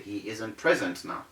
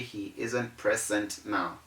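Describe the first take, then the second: First: The middle consonant is a z sound. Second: The middle consonant is an s sound. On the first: The speaker calls it right. "This is the correct thing to say" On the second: The speaker calls it wrong. "You do not say"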